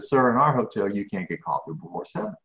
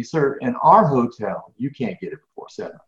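First: A hint of the polite desk clerk, lightly voiced; retold polite clerk. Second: Polite again, slower. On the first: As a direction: quote her calm, polite refusal. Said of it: "she very politely looked at me". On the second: Retold or imitated. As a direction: spell out "Sir, in our hotel" slowly and firmly, still polite. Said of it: "very politely again said to me".

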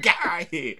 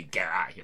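First: High, loud shout of get out of here; shouted brush-off; loud dismissal. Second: Said in the usual way. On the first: Retold or imitated. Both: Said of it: "I didn't say".

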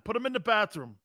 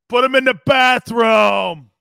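First: Said in the usual way. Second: Slow, loud shouted order; full hammed-up yell of the movie line. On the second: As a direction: bellow the order across the room.

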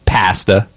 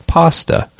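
First: "pasta" with a short flat a; British pasta. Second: "pasta" with a long open ah; American pasta. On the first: Host contrasting countries, "pasta" with short a. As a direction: say "pasta" as PASS-ta, a as in cat. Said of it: "They say pasta". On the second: Host contrasting countries, "pasta" with open ah. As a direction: say "pasta" as PAH-sta. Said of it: "they would do soft A's". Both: Shown as a demonstration.

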